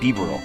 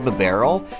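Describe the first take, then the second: First: The name begins like the word beaver. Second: The name does not begin like beaver. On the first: "I kind of like Beaverel. I don't know, it sounds like beaver" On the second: "I've heard people say Bibarel"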